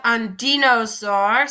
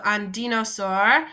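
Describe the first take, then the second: First: Slow model word. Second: Said in the usual way. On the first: Shown as a demonstration. Teacher introducing the new French word to students, slow and deliberate. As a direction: say "un dinosaure" slowly, each syllable drawn out for the class. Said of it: "Next, we have un dinosaure". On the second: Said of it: "So un dinosaure".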